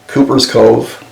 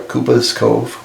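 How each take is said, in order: First: It has a West Country accent with hard R. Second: It has a Southeast English accent with soft R.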